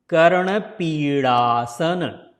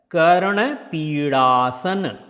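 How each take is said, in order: No difference in how they are said.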